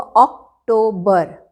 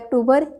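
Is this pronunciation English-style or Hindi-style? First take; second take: English-style; Hindi-style. First: It starts with an 'aw' vowel, English-style. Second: It starts with a short 'uh' vowel, Hindi-style. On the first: The speaker calls it right. "English में होगा अक्टूबर" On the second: The speaker calls it wrong. "Hindi में होता है अक्टूबर"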